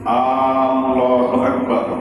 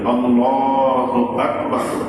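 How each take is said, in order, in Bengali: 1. শুরুতেই প্রথম স্বরটি টেনে পড়া হয়। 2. প্রথম স্বরটি ছোট; শুধু 'lah' টানা হয়। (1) "কেউ যদি শুরুতেই হামজায় টান দেয়" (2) "আল্লাহ এখানে এক আলিফ টান আছে, আকবার এখানে কোনো টান নেই"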